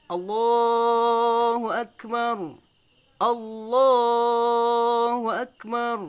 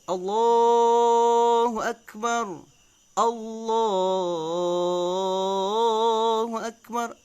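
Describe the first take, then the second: Both takes have the same delivery.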